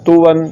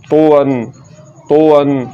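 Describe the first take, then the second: First: तो वन with a light T, like "tu-wan"; thin out the त in तो वन; wrongly thin T. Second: तो वन with a thick, emphatic Arabic T; full-mouthed heavy तो. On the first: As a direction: mistaken light-T तो वन. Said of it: "ये ता पढ़ा जा रहा है". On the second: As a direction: fatten the त in तो वन, rounded toward "to". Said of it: "मोटा करके पढ़ना". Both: Shown as a demonstration.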